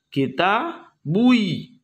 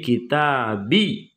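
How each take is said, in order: First: The ending is pronounced with an extra u sound. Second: The ending is pronounced as a plain short bi. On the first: The speaker calls it wrong. "Jadi berat" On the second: The speaker calls it right. "sehingga dibuatlah menjadi kita bi"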